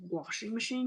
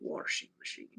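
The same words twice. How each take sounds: First: It is said in a standard, non-country accent. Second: It is said in a Southern country accent. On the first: This is not how the father says it. "He doesn't say washing machine" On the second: This is how the country father says it. "He literally say washing machine"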